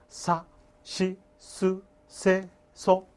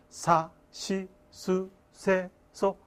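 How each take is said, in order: No difference in how they are said.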